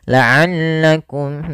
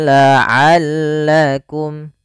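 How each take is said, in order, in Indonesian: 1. Bunyi ain didorong lewat hidung, terdengar sengau. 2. Bunyi ain dibuat di tenggorokan, tidak sengau.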